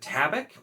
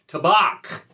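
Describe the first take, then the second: First: The ending sounds like 'back' in tobacco. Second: The ending sounds like a chicken's 'bawk'. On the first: The speaker calls it wrong. "I've always said Tabak uh, for, like, you know, it's it's tobacco" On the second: The speaker calls it right. "apparently it's Tabak, like a chicken"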